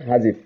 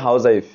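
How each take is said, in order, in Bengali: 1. শব্দটি সংকুচিত, যেমন huzzif। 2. শব্দটি পুরোটা বলা হয়েছে, house-wife। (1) "এটা সঠিক উচ্চারণ হলো যে হাজিফ" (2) "আমরা উচ্চারণ করি যে হাউজাইফ"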